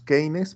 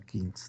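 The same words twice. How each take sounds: First: The name is said with a Spanish pronunciation. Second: The name is said with an English pronunciation. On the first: This is how Spanish speakers commonly say it. The speaker calls it wrong. "los que hablamos español le decimos Keynes" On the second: This is how the name is properly pronounced. The speaker calls it right. "pero se pronuncia Keynes"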